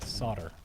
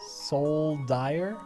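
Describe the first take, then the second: First: The L sound is left out. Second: The L sound is clearly pronounced. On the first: "Like the L is silent" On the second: "There's an L in it"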